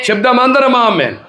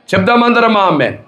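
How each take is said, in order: First: Shouted amen call. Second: Raised preacher's call, పిలుపు "చెప్దామందరం ఆమేన్" pitched up and firm; rally the congregation with "చెప్దామందరం amen"; call to say amen. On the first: Preacher repeating the amen call as a full shout to the congregation. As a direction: cry out "చెప్దామందరం amen" at the top of the voice. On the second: Preacher calling the congregation to say amen, raised and firm. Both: Real, not acted.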